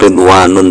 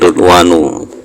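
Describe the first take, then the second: First: The word ends with an added n sound. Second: The word ends on a plain u vowel. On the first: The speaker calls it wrong. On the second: The speaker calls it right.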